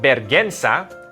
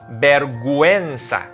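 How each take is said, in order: First: The u after the g is silent. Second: The u after the g is pronounced. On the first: The speaker calls it wrong. "It's not vergüenza" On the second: The speaker calls it right. "it's vergüenza"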